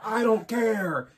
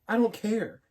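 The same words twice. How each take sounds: First: It is said with strong emphasis. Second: It is said flatly without emphasis.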